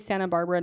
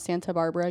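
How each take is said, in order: First: The T in Santa is dropped. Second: The T in Santa is clearly pronounced. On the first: "Like you say Santa Barbara"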